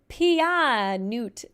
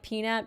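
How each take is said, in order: First: The word is split into odd separate parts. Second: The word is pronounced in the usual way. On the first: "pronounce it weird" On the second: "instead of like"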